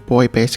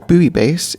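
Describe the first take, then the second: First: Buoy is said as one syllable, like boy. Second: Buoy is said as two syllables, boo-ee.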